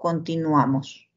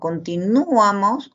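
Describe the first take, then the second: First: The stress falls on the syllable "a". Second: The stress falls on the syllable "nu". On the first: The speaker calls it right. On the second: The speaker calls it wrong.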